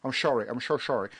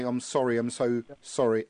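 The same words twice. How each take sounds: First: S's slurred to SH in "sorry" and "so"; mock Scottish actor, "sorry" said as "shorry"; David Tennant. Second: Said in the usual way. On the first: Host defends his impression to doubters, slushy S's on "sorry". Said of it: "got to sort of say their S's". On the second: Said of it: "If you ask, um, Sean Connery to".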